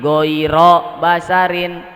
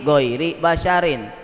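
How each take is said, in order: First: The first word ends in an 'a' vowel. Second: The first word ends in an 'i' vowel. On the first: It makes an exception for human dead. "kalau lapad goiri dibacanya goiro, itu akan jadi istisna" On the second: It describes the dead as other than human. "kalau dibacanya goiri maka jadi sifat"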